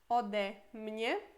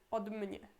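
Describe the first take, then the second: First: A short vowel separates the d from mnie. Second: The d runs straight into mnie without a vowel. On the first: The speaker calls it right. "Por isso, od virá ode" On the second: The speaker calls it wrong. "seria super ruim falar od mnie, od mnie. Fica muito junto, ruim de pronunciar"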